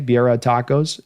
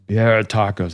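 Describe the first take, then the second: First: It is said in his normal voice. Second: It is said in a Homer Simpson voice.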